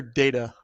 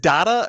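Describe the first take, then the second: First: "data" with a long A, DAY-ta. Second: "data" with an open A in the first syllable; data with short A. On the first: Asking co-host which is right, "data" as DAY-ta. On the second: Asking co-host which is right, "data" with short A. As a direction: say "data" to rhyme with "matter". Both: Shown as a demonstration. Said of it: "is it data or data".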